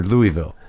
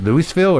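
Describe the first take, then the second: First: Louisville as LOO-ee-vill; silent S in Louisville. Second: Louisville as LOO-iss-vill; S pronounced in Louisville. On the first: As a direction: drop the S from Louisville. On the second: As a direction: sound the S in Louisville. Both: Shown as a demonstration. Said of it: "Is it Louisville or Louisville?".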